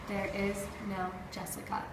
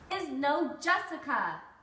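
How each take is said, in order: First: It is read in a flat monotone. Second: It is read with lively feeling.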